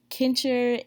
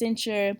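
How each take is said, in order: First: The word begins with a hard K sound. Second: The word begins with a soft S sound. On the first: The speaker calls it wrong. "I said kincher and that's not correct" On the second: The speaker calls it right. "It's pronounced cincher"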